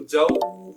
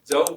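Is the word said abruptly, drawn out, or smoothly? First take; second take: drawn out; smoothly. First: The word is stretched out and held long. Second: The word is said softly at normal length. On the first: The speaker calls it wrong. "इतना लंबा भी नहीं करेंगे खींचकर" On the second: The speaker calls it right. "इसको बस हम जव पढ़ेंगे"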